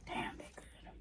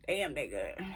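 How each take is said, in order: First: Breathy whisper of delight. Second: Said in the usual way. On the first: Real, not acted. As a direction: whisper it like a guilty pleasure. Savoring snack, whispered aside.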